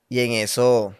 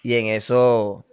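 No difference in how they are said.

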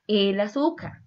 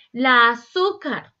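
First: Said in the usual way. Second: "La azúcar" with a slow, loud, drawn-out "la"; stress on la. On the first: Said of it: "es el azúcar". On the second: Shown as a demonstration. Teacher showing students the wrong article, loud and slow. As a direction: lean hard and slow on "la" of "La azúcar". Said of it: "no es la azúcar".

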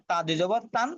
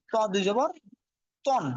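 First: "তান" with a light, thin t. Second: "তন" with a heavy t and rounded vowel. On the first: Teacher showing the difference between letters, light "তান". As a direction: say "তান" with a plain, unemphatic t. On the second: Teacher showing the difference between letters, heavy "তন". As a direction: say "তন" full and emphatic, set apart. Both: Shown as a demonstration. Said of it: "একটু পার্থক্য দেখাইছে".

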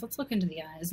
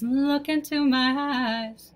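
First: Said in the usual way. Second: Slow, drawn-out hypnotist voice; mock hypnotist. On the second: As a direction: lull them in like a spooky stage hypnotist.

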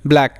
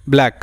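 Both takes have the same delivery.

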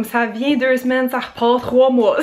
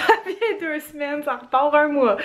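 First: Said in the usual way. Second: Laughing repeat. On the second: Real, not acted. Repeats her habit, laughing.

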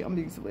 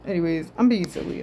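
First: Much softer, trailing off; quiet repeat. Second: Said in the usual way. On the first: Real, not acted. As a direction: repeat it under your breath.

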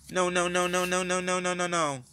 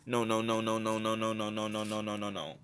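First: Chanted, high sing-song no, no, no. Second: Chanted, low, fading sing-song no, no, no. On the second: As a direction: chant it low and let it fade. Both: Acted.

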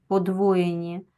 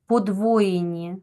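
No difference in how they are said.

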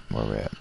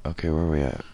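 First: Low mumble to self. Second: Said in the usual way. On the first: Real, not acted. Repeats question lower, softer.

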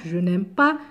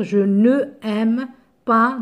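First: "je n'aime pas" with n' joined onto aime; elided negation. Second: "je ne aime pas" with a full ne before aime; unelided negation. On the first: Teacher corrects with the apostrophe, "je n'aime pas" smoothly elided. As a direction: run the n straight into aime, dropping the e. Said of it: "on met l'apostrophe". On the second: Teacher shows what one can't say, "je ne aime pas" without elision. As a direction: keep ne apart from aime, both vowels sounded. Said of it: "on ne peut pas dire". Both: Shown as a demonstration.

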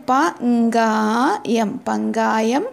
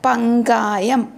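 First: പങ്കായം stretched out very slowly, syllable by syllable; teacher spelling out പങ്കായം at a crawl; very slow model word. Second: Said in the usual way. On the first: Shown as a demonstration. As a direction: draw out പങ്കായം slowly so the class can copy it. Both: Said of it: "അപ്പം നോക്കൂ".

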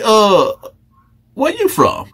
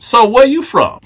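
First: A predator sweet-talking a new inmate; Fleece voice. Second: Said in the usual way. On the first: Acted. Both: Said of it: "Let me get my Fleece voice on".

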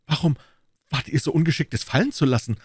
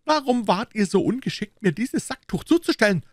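First: Higher, emphatic Gascon comeback; retorting. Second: Very high, indignant musketeer voice; indignant accusation. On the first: D'Artagnan turning the blame on Aramis, retorting. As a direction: throw the question straight back. D'Artagnan throws the question back. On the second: Aramis accusing the Gascon over the cloth, indignant. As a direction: throw the blame in a sharply raised pitch. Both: A narrator's reading.

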